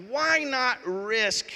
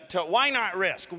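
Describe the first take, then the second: First: Why drawn out high and slow on Why not risk; slow, raised Why not risk, pressing each word; stress on why. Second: Said in the usual way. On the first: Shown as a demonstration. Pastor pressing students: Why not risk, slow and high.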